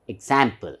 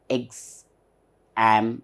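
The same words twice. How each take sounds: First: Said in the usual way. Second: EXAMPLE slowly split as eks, am, pl; three separate, lower strokes on "example"; syllable by syllable. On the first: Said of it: "So it's example". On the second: Shown as a demonstration. Teacher repeats what she just said, syllable by syllable. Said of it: "Three times I am opening the mouth".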